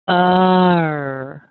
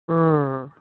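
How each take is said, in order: First: The er sound shifts as the jaw opens. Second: The er sound stays steady throughout. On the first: The speaker calls it wrong. "If I say this incorrectly, I will open my jaw a little bit" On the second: The speaker calls it right. "look at the sound again"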